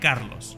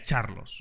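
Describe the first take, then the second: First: The name begins with a K sound. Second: The name begins with a CH sound. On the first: The speaker calls it wrong. "he dicho Carlos" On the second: The speaker calls it right. "pero realmente se pronuncia Charlos"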